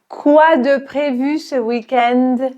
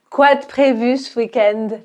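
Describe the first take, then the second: First: The sentence is spoken slowly. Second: The sentence is spoken fast with vowels dropped. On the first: "On va la répéter dans un premier temps lentement" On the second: "on va parler rapidement"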